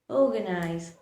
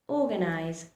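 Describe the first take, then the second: The two takes are said the same way.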